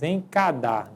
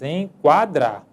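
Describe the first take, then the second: First: No w sound follows the k sound. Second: A w sound follows the k sound. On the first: The speaker calls it wrong. "nós não dizemos encadar" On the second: The speaker calls it right. "Nós dizemos enquadrar"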